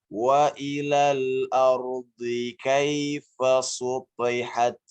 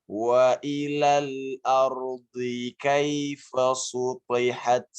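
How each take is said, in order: No difference in how they are said.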